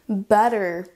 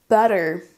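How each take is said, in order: The two takes are said the same way.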